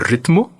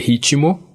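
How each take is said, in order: First: The middle consonants are said together, no vowel. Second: A vowel is inserted between the middle consonants. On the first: Nobody actually says it this way. "que ninguém fala" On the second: This is how people actually say it. "dizer ritmo"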